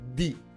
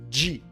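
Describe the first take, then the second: First: The d is a plain hard d. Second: The d is softened toward a dj sound. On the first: The speaker calls it wrong. "você não fala di" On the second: The speaker calls it right. "você fala di"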